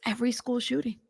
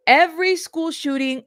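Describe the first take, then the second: First: Said in the usual way. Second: EVERY hit high and loud; emphatic repeat. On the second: Real, not acted. Host driving a point home to viewers, emphatic on "Every". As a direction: punch "Every", pitch lifted through "Every school shooting".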